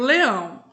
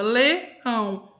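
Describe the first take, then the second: First: Said in the usual way. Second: "leão" slowly broken into two syllables, le... ão; split into syllables. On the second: Shown as a demonstration. Teacher showing pupils how the word divides, "leão" split into syllables. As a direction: say "leão" syllable by syllable, pause before "ão". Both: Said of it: "Quando eu separo a sílaba".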